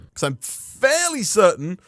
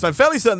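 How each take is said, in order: First: The voice sounds hesitant and unsure. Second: The voice sounds firm and sure.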